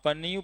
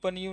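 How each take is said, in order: First: The word begins with a p sound. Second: The word begins with a p sound.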